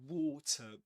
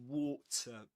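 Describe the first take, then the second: First: It is said with a British accent. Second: It is said with a British accent.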